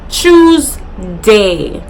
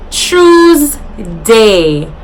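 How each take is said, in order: The two takes are said the same way.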